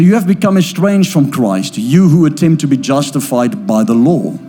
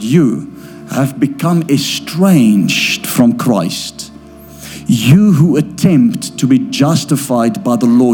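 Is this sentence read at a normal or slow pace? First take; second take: normal; slow. First: The sentence is read at a normal pace. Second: The sentence is read very slowly.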